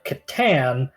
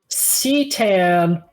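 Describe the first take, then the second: First: The name begins with a hard K sound. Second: The name begins with a soft S sound. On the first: This is the official way to say the name. "not ever the one they go with officially" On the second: This is a fan way of saying the name. "Alternate pronunciation of Catan is Cetan or Satan. Those are fan pronunciations"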